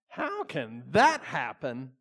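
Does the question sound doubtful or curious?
doubtful. It sounds doubtful and disbelieving.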